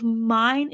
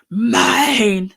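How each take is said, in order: First: Said in the usual way. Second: Loud possessive growl of "Mine". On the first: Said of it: "That growl of". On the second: Shown as a demonstration. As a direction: growl "Mine!" like a claiming beast. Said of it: "doesn't sound like a growl".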